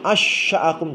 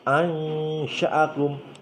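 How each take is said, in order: First: The sh sound is doubled with no nasal hum. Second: A nasal hum is held before the sh sound. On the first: The speaker calls it wrong. "Bukan seperti di tasjid, bukan. Misalkan asya'akum, tidak" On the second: The speaker calls it right. "Tetapi dengung"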